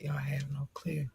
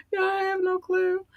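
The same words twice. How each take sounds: First: Hushed, unvoiced confession; overcome whisper. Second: Tiny high-pitched voice; overcome squeak. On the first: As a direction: whisper it, melting with emotion. Overcome by listeners' love. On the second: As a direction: squeak it out, melting with emotion. Repeats it, overcome, after laughing. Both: Real, not acted.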